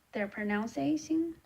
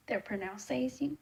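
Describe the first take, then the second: No difference in how they are said.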